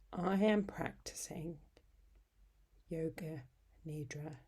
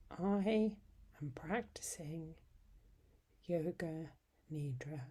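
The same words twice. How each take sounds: The two takes are said the same way.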